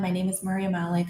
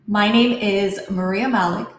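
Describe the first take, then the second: First: The pitch stays flat on one tone. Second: The pitch moves up and down expressively. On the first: The speaker calls it wrong. "I'm going to use monotones" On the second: The speaker calls it right. "let me use and fix my tonality"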